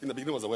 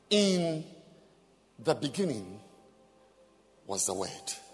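First: The phrase is read quickly and hurriedly. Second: The phrase is read slowly and deliberately. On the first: The reader rushes through as if it were ordinary text. The speaker calls it wrong. "You don't say" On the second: The reader takes time to let the words sink in. The speaker calls it right. "So it's slow. You take your time"

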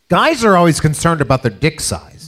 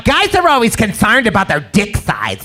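First: It is said in his ordinary speaking voice. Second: It is said in a put-on bitchy female voice. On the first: "Where's your female voice?" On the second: "I'm gonna try bitchy here"

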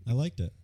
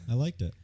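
The two takes are said the same way.

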